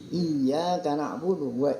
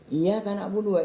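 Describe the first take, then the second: First: The y sound is held and doubled. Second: The y sound is short and single. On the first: The speaker calls it right. "Harusnya kan bukan begitu" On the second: The speaker calls it wrong. "yang banyak iya nih"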